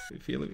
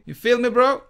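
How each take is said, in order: First: Low murmured question; quiet. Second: Louder, taunting, rising at the end; louder teasing. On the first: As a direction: ask it softly under the breath. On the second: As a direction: push it out like a taunt. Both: Pretend.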